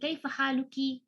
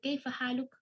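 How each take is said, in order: First: The last word ends with a final vowel sound. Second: The last word ends on a bare consonant. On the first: This is the textbook form used while learning. The speaker calls it wrong. "misalnya, di sini" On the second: This is how native speakers actually say it. The speaker calls it right.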